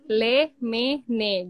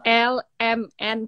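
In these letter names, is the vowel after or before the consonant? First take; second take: after; before. First: Each letter name ends with the vowel sound. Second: Each letter name starts with the vowel sound. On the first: This is how the letters are named in Turkish. "Kalau di sini le, me, ne gitu, Kak. Jadi E-nya tuh pindah" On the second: This is the usual way of naming the letters. "Kalau di sini kan biasanya kayak L, M, N"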